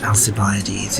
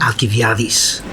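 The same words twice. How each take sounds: First: The name is said with an anglicised soft C. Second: The name is said with a modern Greek pronunciation. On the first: Listeners in Athens would not understand it. "they wouldn't understand who you were talking about if you said Alcibiades" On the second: This is how it is said in Athens today. "Which I think sounds very romantic"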